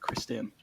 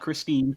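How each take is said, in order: First: The name ends with a 'ten' sound. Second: The name ends with a 'teen' sound. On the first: The speaker calls it right. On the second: The speaker calls it wrong. "not Christine"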